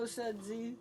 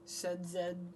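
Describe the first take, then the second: First: The final letter is said as zee. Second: The final letter is said as zed.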